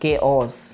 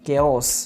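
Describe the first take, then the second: No difference in how they are said.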